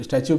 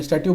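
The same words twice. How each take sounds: First: स्टैचू pronounced sta-choo, as others read it; 'statue' with a ch. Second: स्टैचू pronounced stat-yoo, no 'ch'; 'statue' with a t. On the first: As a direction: say स्टैचू with a 'ch' sound, stach-oo. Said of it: "कई लोग इसको". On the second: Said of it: "मैं स्टैचू बोल रहा हूँ". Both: Shown as a demonstration.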